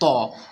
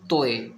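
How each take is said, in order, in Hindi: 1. शब्द सादे 'o' स्वर पर समाप्त होता है। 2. स्वर के अंत में एक जुड़ा हुआ 'eh' ग्लाइड है। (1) "तो होता है तो" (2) "अब इसे क्या बोलते हैं लोग, तोए। तोए नहीं होता, ये सब गलत है।"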